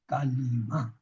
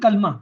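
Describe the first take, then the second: First: An i vowel is said between the l and m. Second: No vowel is said between the l and m. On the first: The speaker calls it right. "लाम के नीचे जेर है" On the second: The speaker calls it wrong. "कलमा ये उर्दू में गलत कहते हैं"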